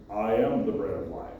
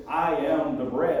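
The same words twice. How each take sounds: First: Lower, booming mock voice of God. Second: Said in the usual way. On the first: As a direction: play God, deep and solemn with a wink. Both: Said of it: "That was my best God voice".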